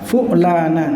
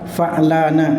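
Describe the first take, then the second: First: The first consonant is followed by a u vowel. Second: The first consonant is followed by an a vowel. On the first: "dengan dhammahnya fa" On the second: "dengan fathahnya fa"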